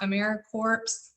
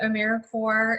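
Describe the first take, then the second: First: The ending sounds like corpse, with p and s. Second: The ending sounds like core, without p or s. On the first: The speaker calls it wrong. "It is not AmeriCorps" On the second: The speaker calls it right. "pronounced as if it was like core of the earth or Marine Corps"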